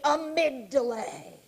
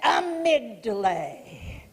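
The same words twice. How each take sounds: First: Said in the usual way. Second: "Amygdala." dragged out very slowly with feeling; emotional amygdala. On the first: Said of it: "and say". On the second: Shown as a demonstration. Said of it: "say it like that".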